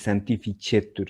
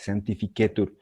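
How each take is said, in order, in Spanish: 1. La c central suena como ch. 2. La c central suena como k. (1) "no se dice santificetur" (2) "se dice santificetur"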